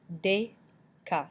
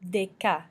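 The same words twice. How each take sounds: First: "Deca" split in two, pause after "De"; syllable by syllable. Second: Said in the usual way. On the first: Shown as a demonstration. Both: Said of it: "makes the A sound".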